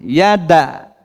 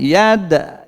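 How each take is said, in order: First: The vowel after the d is full length. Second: The vowel after the d is a brief echo. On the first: It is a real vowel mark. "Kalau bunyi fathah seratus persen fathah" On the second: It is only the echo of a stopped consonant. "Kalau pantulan hanya tiga puluh persen"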